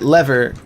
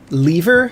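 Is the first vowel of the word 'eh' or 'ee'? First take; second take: eh; ee. First: The first vowel is a short 'eh' sound. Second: The first vowel is a long 'ee' sound. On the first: "If you pronounce it lever, just spell it one E" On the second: "if you pronounce it lever, spell it with two E's"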